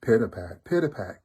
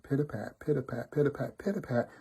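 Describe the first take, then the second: First: Heavy, weighted pitter-pat footsteps; big and heavy. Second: Light, even pitter-pat footsteps; light tiptoeing. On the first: Wolf coming behind little daughter, heavy pattering delivery. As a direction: land each pitter-pat like a big paw. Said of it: "she hears big and heavy". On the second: Little daughter tiptoeing to the gate, light pattering delivery. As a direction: tick the words off like small careful steps. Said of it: "little daughter tiptoed toward the gate". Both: A narrator's reading.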